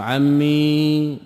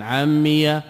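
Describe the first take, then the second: First: عمي with the final ي held silent and stretched, very slow; ياء ساكنة. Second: عمي ending on an open ya with fatha; ياء مفتوحة. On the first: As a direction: draw out عمي slowly, ending on a still ya. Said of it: "بالإسكان". (عمي بياء ساكنة ممدودة ببطء) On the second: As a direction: say عمي with a short open ya at the end. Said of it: "بالفتح". (عمي بفتح الياء) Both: Shown as a demonstration.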